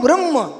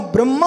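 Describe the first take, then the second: First: ब्रह्म closed on mm, only a brief a; short final vowel. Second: ब्रह्मा with a full aa at the end; long final vowel. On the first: Teacher repeating two words, short ending on ब्रह्म. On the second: Teacher repeating two words, long final aa in ब्रह्मा. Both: Shown as a demonstration. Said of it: "दो शब्द बोल रहा हूं".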